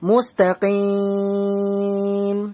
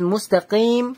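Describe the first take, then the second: First: The vowel before the final m is held three counts. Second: The vowel before the final m is held one count. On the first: "তিন আলিফ টান দিলাম" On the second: "এক আলিফ টান দিলাম"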